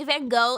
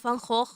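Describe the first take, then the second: First: Van Gogh ending like English "go"; Van Gogh with a silent final gh. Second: Van Gogh with throaty Dutch consonants; Van Gogh in native Dutch pronunciation. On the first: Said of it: "I say Van Gogh instead of". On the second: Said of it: "things that I do refuse to pronounce". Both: Shown as a demonstration.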